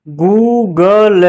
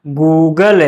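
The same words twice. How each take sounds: First: "गूगल" slow in separate syllables. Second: Said in the usual way. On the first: Shown as a demonstration. Teacher spelling out an example, "गूगल" slow and split. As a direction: sound out "गूगल" piece by piece.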